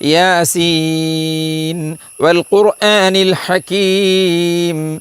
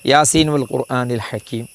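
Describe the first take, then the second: First: The vowel in 'Seen' is held long. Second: The vowel in 'Seen' is short. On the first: The speaker calls it right. "മദ്ദുൽ ലാസിം മസ്റ്റാണ്, മൂന്ന് അലിഫാണ്" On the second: The speaker calls it wrong. "നമ്മളെ ആളുകൾ പലരും യാസീൻ ഓതുന്നത് ഞാനിപ്പോൾ ഈ പറയും പോലെയാ"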